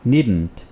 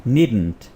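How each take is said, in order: First: It is said as one short contracted word. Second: The same.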